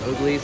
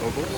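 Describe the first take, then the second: First: The name ends with an 'eez' sound. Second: The name ends with an 'uhlz' sound. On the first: The speaker calls it wrong. "I always pronounce it Oglies" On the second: The speaker calls it right. "actually it's Ogles"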